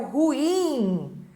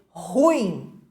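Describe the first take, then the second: First: Ruim stressed on IM, ru-IM; correct final stress. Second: Ruim stressed on RU, RÚ-im; wrong first-syllable stress. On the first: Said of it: "a pronúncia correta é o ruim". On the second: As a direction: say "ruim" with the beat on the U. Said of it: "erradamente pronunciada como paroxítona". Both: Shown as a demonstration.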